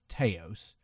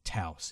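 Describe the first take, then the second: First: The name is pronounced the British way. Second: The name is pronounced the American way. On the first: "in England, I would pronounce it Taos" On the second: "they like to pronounce it Taos here in America"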